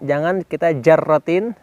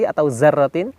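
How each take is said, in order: First: The word begins with a j sound. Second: The word begins with a z sound.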